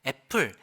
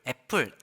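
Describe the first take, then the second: First: The first vowel is a clear 'e' sound. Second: The same.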